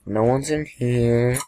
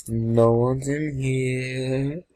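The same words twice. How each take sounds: First: Said in the usual way. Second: "No one's in here" stretched slowly, half singsong; slow, lingering call on "No one's in here"; drawn out. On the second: Pretend. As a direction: draw out every word, holding "here" long. Searching rooms, repeated drawn out.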